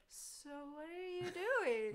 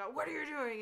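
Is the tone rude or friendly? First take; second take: friendly; rude. First: It is asked in a kind, friendly tone. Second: It is asked in a rude, confrontational tone.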